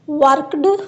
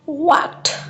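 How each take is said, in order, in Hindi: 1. अंत का उच्चारण d साउंड की तरह होता है। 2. अंत का उच्चारण t साउंड की तरह होता है। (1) "this is आर wrong pronunciation" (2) "ई और डी को कंबाइन करके ठ साउंड पढ़ना"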